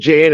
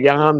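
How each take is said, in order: First: The name starts with an English J sound. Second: The name starts with a Y sound. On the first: The speaker calls it wrong. "he pronounced it Jan" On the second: The speaker calls it right. "instead of Jan"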